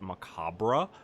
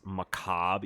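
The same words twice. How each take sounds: First: The word ends with an extra 'ruh' syllable. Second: The word ends without a final 'ruh' syllable. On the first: The speaker calls it wrong. "You don't pronounce the R E. It's not macabre" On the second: The speaker calls it right. "because it's macabre"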